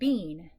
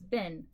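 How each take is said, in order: First: The vowel is a long ee sound. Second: The vowel is a short i sound. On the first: The speaker calls it wrong. "this is not bean" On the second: The speaker calls it right. "this is bin"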